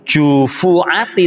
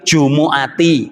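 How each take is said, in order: First: The middle consonant is a dotted, harsher letter sound. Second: The middle consonant is a soft throat 'ayn' sound. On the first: The speaker calls it wrong. "itu keliru iku ono titike iku salah" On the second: The speaker calls it right. "Yang betul"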